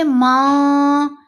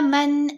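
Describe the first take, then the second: First: The n is hidden, with only nasalization. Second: The n is short and clearly pronounced. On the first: The speaker calls it wrong. "तो ये इहफा है" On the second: The speaker calls it right. "नून की आवाज को जल्दी पढ़ना और जाहिर करके पढ़ना"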